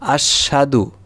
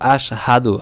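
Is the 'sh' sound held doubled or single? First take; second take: doubled; single. First: The sh sound is doubled and held longer. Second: The sh sound is short and single. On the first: The speaker calls it wrong. "শিনে উচ্চারণ দুইবার করি, এটা আমাদের ভুল উচ্চারণ" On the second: The speaker calls it right. "হাদু হবে"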